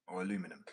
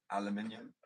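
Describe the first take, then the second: First: Aluminum said the American way, a-LU-mi-num; aluminum with four syllables, stress on LU; American pronunciation. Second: Aluminium said the British way, al-u-MIN-i-um; aluminium with all five syllables; British pronunciation. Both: Shown as a demonstration. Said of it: "aluminium or aluminum".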